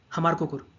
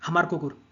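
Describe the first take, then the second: No difference in how they are said.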